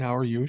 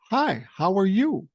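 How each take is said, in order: First: Said in the usual way. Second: Put-on high-pitched small child's greeting; imitated little girl. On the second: Granddaughter greeting an elderly stranger, imitated high and bold. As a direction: imitate a fearless three-year-old, pitched up. Quoting his three-year-old granddaughter.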